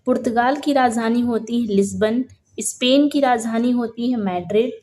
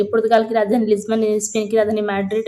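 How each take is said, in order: First: Said in the usual way. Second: Brisk, run-together recital for daily revision; quick revision reading. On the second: Shown as a demonstration. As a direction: rattle it off fast. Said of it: "जल्दी जल्दी से ऐसे". (जल्दी-जल्दी पढ़ते हुए)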